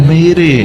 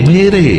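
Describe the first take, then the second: The two takes are said the same way.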